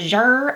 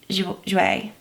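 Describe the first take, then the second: First: The name ends on a plain 'oor' sound. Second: The name ends with an added vowel sound. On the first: The speaker calls it wrong. "I was like, Jour" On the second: The speaker calls it right. "no, it's Jouer"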